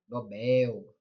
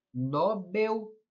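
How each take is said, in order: First: Nobel stressed on the last syllable, no-BÉL; right stress Nobel. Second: Nobel with stress on the first syllable, NÓ-bel; wrong stress Nobel. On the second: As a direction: say Nobel as NÓbel, open ó stressed. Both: Shown as a demonstration. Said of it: "ou Nobel?".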